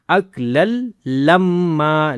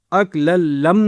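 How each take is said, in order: First: اَكْلَلْ لَمَّا with doubled "m" running into long "maa"; open "maa" ending. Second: اَكْلَلْ لَمْ cut short on a closed "m"; stopped "m" ending. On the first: Teacher modelling the correct ending, لَمَّا ending in "maa". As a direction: finish لَمَّا on an open, held "aa". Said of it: "ما کریں گے". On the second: Teacher showing what not to do, لَمْ closed on "m". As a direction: stop dead on the "m" of لَمْ. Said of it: "نہیں کرنا". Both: Shown as a demonstration.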